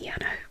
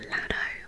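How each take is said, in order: First: The name begins with a Y sound. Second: The name begins with a plain L sound. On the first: "double L's are usually pronounced like a Y in Spanish, that's why I've said Llano" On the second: "I don't know if it's pronounced Llano or Lano"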